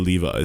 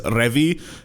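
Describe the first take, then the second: First: The name begins with a clear L sound. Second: The name begins with an R-like sound. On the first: This is how the English dub says it. "in the English dub they say Levi" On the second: This is how the Japanese version says it. "they pronounce Levi as Revi in Japanese"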